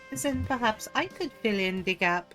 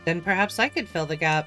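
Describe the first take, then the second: First: It is said with a French accent. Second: It is said without a French accent. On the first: The speaker calls it right. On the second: The speaker calls it wrong.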